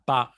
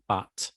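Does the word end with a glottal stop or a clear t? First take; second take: glottal stop; clear t. First: The word ends with a glottal stop. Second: The word ends with a clear t sound.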